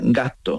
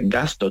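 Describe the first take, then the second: First: No s is heard and the t is long. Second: An s is heard before a short t. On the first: "La S la quita y alargas la T" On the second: "tú no dices gasto"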